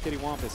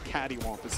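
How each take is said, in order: First: The first syllable sounds like 'kit'. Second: The first syllable sounds like 'cat'. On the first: The speaker calls it wrong. "I definitely don't pronounce the word I think uh, accurately, but it's it's it's my way" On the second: The speaker calls it right. "I think it's catty wampus technically"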